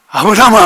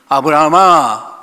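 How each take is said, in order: First: The name is called urgently and hurriedly. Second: The name is called calmly and unhurriedly.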